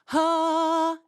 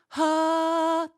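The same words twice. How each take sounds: First: The sound is balanced, neither nasal nor throaty. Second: The sound is breathy and placed in the throat. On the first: The speaker calls it right. "That's a nice middle ground" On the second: The speaker calls it wrong. "That's more in the throat, more in the wispy area"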